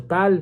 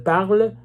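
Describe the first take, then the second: First: "parle" without its r, like "pal"; mispronounced "parle". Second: Said in the usual way. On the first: Shown as a demonstration. Showing viewers the written mistake, "parle" said as "pal". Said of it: "au lieu de dire parle". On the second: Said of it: "pour dire, dire parle".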